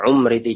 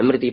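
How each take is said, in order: First: The name begins with a u vowel. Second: The name begins with an i vowel. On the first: "ada yang membaca dhammah" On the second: "ada yang membaca kasroh"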